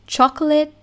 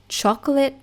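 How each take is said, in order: The two takes are said the same way.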